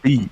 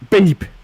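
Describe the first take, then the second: First: It is said plainly, without emotion. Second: It is said as if in sudden pain.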